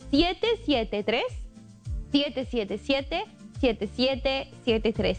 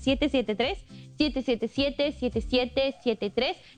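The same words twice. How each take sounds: First: The number is read more slowly. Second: The number is read at normal speed.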